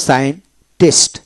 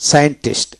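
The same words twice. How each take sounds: First: Slow scientist with a gap before tist; syllable by syllable. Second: Said in the usual way. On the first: Shown as a demonstration. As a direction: teach scientist in two separate pieces. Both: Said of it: "এইভাবে হবে".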